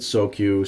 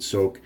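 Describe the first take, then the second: First: The word is said with two syllables. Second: The word is said with one syllable. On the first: "Some people said soak you" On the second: "Some people said soak"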